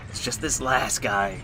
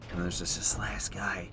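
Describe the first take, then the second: First: Said in the usual way. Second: Hushed tense whisper; real whispered aside. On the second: Real, not acted. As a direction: breathe it out so the boss won't hear. Quiet aside in tense fight.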